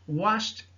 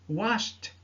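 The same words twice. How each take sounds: Both takes have the same delivery.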